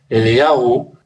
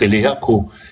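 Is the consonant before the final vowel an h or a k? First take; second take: h; k. First: The final syllable has an h sound or none. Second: The final syllable has a k sound. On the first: This form contains part of the divine name. "содержащее сочетание имени Бога" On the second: This form avoids part of the divine name. "многие ортодоксальные евреи произносят как Элияку"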